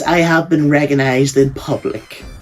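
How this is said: It is said in a posh, upper-class accent. The speaker calls it wrong. "now I just sound like a posh prick"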